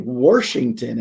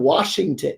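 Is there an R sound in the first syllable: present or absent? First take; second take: present; absent. First: An R sound is added in the first syllable. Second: No R sound is in the first syllable. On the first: The speaker calls it wrong. "There's no R in Washington" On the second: The speaker calls it right. "There's no R in Washington"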